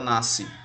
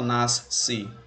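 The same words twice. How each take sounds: First: The s and c merge into one s sound. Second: The s and c are pronounced as two sounds. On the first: The speaker calls it right. "você fala nasce, como se o S C tivesse som de S" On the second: The speaker calls it wrong. "Você não fala nasce"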